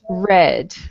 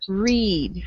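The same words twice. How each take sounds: First: The vowel is short, as in 'red'. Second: The vowel is long, as in 'reed'. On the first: The action happened in the past. "In the past tense, it's pronounced read" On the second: The action happens now or habitually. "In the present tense, this word is pronounced read"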